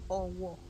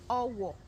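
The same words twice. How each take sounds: First: Both syllables stay on the same low pitch. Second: The second syllable is lower than the first. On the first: A town in Yoruba land. "do, do" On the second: A broom. "re, do"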